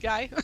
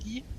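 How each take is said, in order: First: The name is said with an English pronunciation. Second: The name is said with a French pronunciation. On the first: The speaker calls it wrong. "not Guy" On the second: The speaker calls it right. "because it is the French uh, pronunciation"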